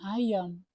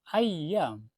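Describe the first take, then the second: First: The y sound is single and short. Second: The y sound is doubled and held long. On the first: It means chicken. The speaker calls it wrong. "bukan ayam" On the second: It means days. The speaker calls it right. "ayyam bisyiddah, pakai tasydid"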